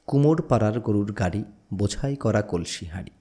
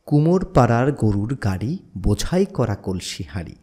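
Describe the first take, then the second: First: It is recited plainly without a marked beat. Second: It is recited with a strong, marked beat. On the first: "সেই ছান্দিকভাবে সেটাকে প্রথমে উপস্থাপন করিনি" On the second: "এখন ছান্দিকভাবে উপস্থাপন করছি"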